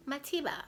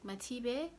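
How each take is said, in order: First: "Matiba" with a final "ah", called out higher and louder; the nurse reading out "Matiba", ending in "ah"; nurse's version of the name. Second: "Matibe?" ending in "eh" with a questioning rise; checking the name as "Matibe", ending in "eh"; correcting the name. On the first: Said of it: "She says". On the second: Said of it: "And I'm like". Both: Retold or imitated.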